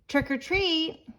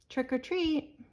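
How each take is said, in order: First: It is said a little louder. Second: It is said very softly.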